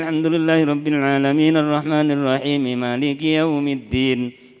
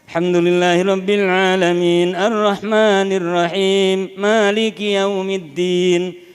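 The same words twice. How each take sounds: First: The verse is recited quickly with little pausing. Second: The verse is recited slowly and deliberately. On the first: It is quicker recitation used to finish sooner. "Tadwir itu dua puluh lima menit saya" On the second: It is careful, measured recitation. "Bacaan tartil itu kan"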